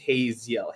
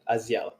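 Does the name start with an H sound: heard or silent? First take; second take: heard; silent. First: The name begins with an audible H sound. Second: The name begins with a vowel, no H. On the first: The speaker calls it wrong. "when I use it with like uh with an American accent, it's just it just becomes Haziel" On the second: The speaker calls it right. "The H is silent"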